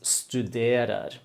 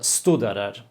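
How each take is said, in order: First: The stress is on the second syllable. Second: The stress is not on the second syllable. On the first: The speaker calls it right. "it is studerer. ... the accent is on the second syllable" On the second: The speaker calls it wrong. "you said uh, studerer"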